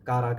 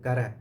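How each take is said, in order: First: The name is said with long vowels. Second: The name is said with short vowels. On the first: The speaker calls it wrong. "காரா கிடையாது" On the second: The speaker calls it right. "இந்த படத்து பேரு கர"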